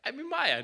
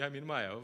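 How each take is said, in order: First: High, louder startled admission; sudden realization. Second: Said in the usual way. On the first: Retold or imitated. Devotee realizing his own illusion, startled and high. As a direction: catch yourself in the act. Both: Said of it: "we should be like".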